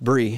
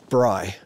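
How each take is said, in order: First: The vowel sounds like 'ee'. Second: The vowel sounds like 'eye'. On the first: The speaker calls it right. "but it's Brie" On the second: The speaker calls it wrong. "always pronounced it Bry"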